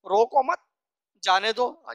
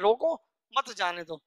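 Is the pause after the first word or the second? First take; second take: second; first. First: The pause comes right after the second word. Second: The pause comes right after the first word.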